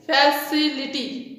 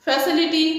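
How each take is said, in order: First: फैसिलिटी slowly in pieces, fa-ci-lity; split into syllables. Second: Said in the usual way. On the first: Shown as a demonstration. Teacher dividing फैसिलिटी for students, slow syllable by syllable. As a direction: break up फैसिलिटी with small gaps. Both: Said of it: "three syllable division में".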